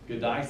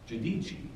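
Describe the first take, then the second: First: The name is said with an Americanized pronunciation. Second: The name is said with an Italian pronunciation. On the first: The speaker calls it wrong. "Gadice is how we pronounce it because we're not smart enough to speak Italian" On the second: The speaker calls it right. "so the correct pronunciation is Giudice"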